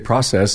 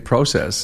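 First: The word has a non-Canadian pronunciation. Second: The word has a Canadian pronunciation. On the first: "We say process" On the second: "you say process"

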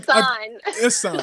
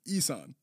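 First: The name is said with an L sound. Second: The name is said without an L sound. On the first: The speaker calls it wrong. "I feel like I keep fucking up the L" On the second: The speaker calls it right.

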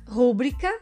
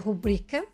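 First: The stress is on the first syllable. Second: The stress is on the second syllable. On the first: The speaker calls it wrong. "Estão incorretas" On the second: The speaker calls it right. "o correto é rubrica"

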